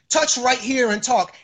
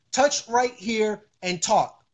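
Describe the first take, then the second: First: Said in the usual way. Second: Slow, words set apart; deliberate, word-by-word demonstration; slow patient instruction. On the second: Real, not acted. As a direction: spell out each step slowly. Answers doubter by spelling it out.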